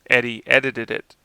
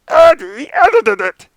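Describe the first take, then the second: First: It is said in his natural voice. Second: It is said in Dave Coulier's Jackalope cartoon voice.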